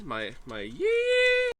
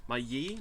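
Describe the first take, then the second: First: High, drawn-out yeehaw cry; cowboy yell. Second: Said in the usual way. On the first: Shown as a demonstration. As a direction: belt it out like a cowboy. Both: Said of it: "Let me hear your yee".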